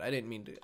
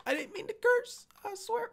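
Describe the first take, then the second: First: Said in the usual way. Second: Very high falsetto plea; play-apologize in a tiny high squeak; squeaky mock apology. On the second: Gamer excusing his swearing to viewers, squeaky mock apology.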